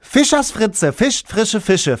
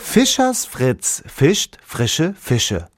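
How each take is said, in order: First: It is said very fast. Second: It is said at a normal speed.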